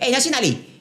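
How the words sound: The words sound blunt, in a Malaysian accent. "Malaysia, eh, ... Like kita macam aggressive sikit"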